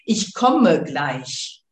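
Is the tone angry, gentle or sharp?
sharp. It is said in a sharper, stricter tone.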